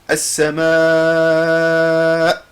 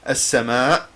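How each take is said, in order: First: The final vowel is drawn out long. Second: The final vowel is short and clipped. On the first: The speaker calls it right. "no, you say as-sama" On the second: The speaker calls it wrong. "you don't say only as-sama like cat"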